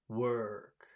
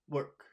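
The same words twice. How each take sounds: First: The vowel is long and pushed out strongly. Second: The vowel is short and quickly clipped. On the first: The speaker calls it right. "You have to take your time saying that vowel sound" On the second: The speaker calls it wrong. "It's not work"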